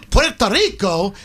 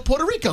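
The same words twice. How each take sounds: First: It is said with a Spanish-style accent. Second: It is said with an American English accent. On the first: The speaker is imitating the native language of the place. The speaker calls it wrong. "then you might be offending the people whose language it is" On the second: This is how the speaker's own community says it. The speaker calls it right. "because that's how we pronounce it"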